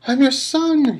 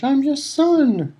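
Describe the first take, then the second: First: Very high, loud scream; desperate scream. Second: Very high, slow anguished cry; drawn-out scream. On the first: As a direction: scream it up at your father. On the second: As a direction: stretch every word in despair. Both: A narrator's reading. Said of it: "he screamed up at Crouch".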